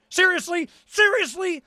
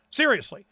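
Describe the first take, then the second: First: Rising disbelief, voice jumps up; seriously, really?; incredulous. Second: Said in the usual way. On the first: Real, not acted. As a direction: ask it like you can't believe it. Incredulous repeated question.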